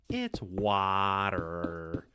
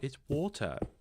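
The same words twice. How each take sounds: First: Water is said in an American accent. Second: Water is said in a British accent.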